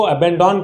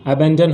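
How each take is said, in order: First: अबैंडन with a full "DON" ending; common mispronunciation. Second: अबैंडन as uh-BAN-dun; correct pronunciation. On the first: Teacher showing learners how people misread it, common mispronunciation. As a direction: say अबैंडन as a-ban-DAWN, last vowel full. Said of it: "लोग इसको अबैंडन पढ़ते हैं". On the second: Teacher giving learners the proper reading, correct pronunciation. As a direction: say अबैंडन with a short, weak final vowel. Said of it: "इसका जो सही उच्चारण होता है". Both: Shown as a demonstration.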